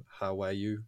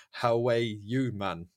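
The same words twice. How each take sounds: First: Said in the usual way. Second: Drawn-out, louder Geordie delivery; Geordie accent. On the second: Shown as a demonstration. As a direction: put on a slow Geordie accent. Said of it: "say two of these in a Geordie accent".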